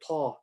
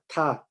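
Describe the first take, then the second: First: It is said with a full, heavy mouth. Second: It is said with a flat, light mouth. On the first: The speaker calls it wrong. "We don't say ta" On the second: The speaker calls it right. "our mouth would be flat"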